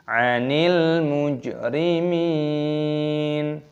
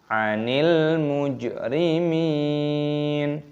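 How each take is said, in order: The two takes are said the same way.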